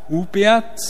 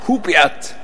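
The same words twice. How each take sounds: First: The name is said with clear surprise. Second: The name is said quickly, as a call. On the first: Someone is pleasantly surprised by good work. "ganz überrascht" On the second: Someone is being called down to eat. "Das zweite war ein bisschen schneller"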